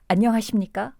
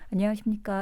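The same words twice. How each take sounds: First: The h sound is strong, with a puff of breath. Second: The h sound is weak, with little breath. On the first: The speaker calls it right. "바람 소리를 탁 내고 시작하면" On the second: The speaker calls it wrong. "이러지 마시고요"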